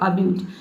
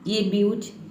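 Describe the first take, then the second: First: The word begins with a short 'uh' vowel. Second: The word begins with an 'ay' vowel. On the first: The speaker calls it right. "अब्यूज पढ़ेंगे" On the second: The speaker calls it wrong. "ये ए ब्यूज नहीं हो सकता है"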